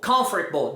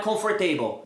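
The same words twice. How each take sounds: First: Swallowed middle in "comfortable"; correct pronunciation. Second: "comfortable" ending in "table"; wrong pronunciation. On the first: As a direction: lower "comfortable" stressed on COM. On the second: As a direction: say "comfortable" as comfor-TAY-bol. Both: Shown as a demonstration. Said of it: "não é comfortable".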